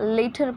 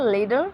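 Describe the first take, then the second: First: It is said with a British accent. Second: It is said with an American accent. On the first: "British में later पढ़ा जाता है" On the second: "ये American accent है"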